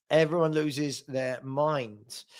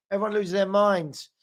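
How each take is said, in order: First: Low, drawn-out repeat; weighty, word-by-word delivery; slow, deliberate. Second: Said in the usual way. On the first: Real, not acted. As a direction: spell it out slowly and drop the pitch.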